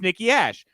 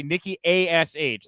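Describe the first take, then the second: First: Ash said as one word; acronym as word. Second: A S H spelled letter by letter; A S H as separate letter names. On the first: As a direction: say Ash as a single syllable, not as letters. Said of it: "so you can say the word". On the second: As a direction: say Nikki, then spell out A S H as three letters. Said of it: "they all have to say". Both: Shown as a demonstration.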